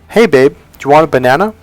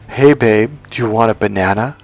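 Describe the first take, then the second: First: It sounds direct and plain. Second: It sounds crude and suggestive.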